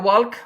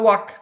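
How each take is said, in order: First: The L sound is pronounced. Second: The L sound is silent. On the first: The speaker calls it wrong. "মানে এলটাকে উচ্চারণ করেন" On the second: The speaker calls it right. "এটা ওয়াক।"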